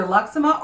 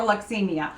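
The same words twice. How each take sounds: First: Luxema, three syllables ending in -ma; first pronunciation. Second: Luxemia, ending in "mee-uh"; alternative pronunciation. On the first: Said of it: "not a hundred percent sure how to pronounce it". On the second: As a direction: say Luxemia with an extra syllable, -mi-a. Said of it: "I've heard it pronounced both ways". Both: Shown as a demonstration.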